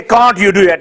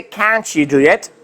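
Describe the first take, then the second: First: "Can't you" with a separate t and y; unlinked wrong way. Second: "Can't you" said as "can-chu", slowly; ch linking. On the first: Teacher warning the class what not to say. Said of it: "Don't say". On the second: Teacher modelling the phrase for students. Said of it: "So you'll say". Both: Shown as a demonstration.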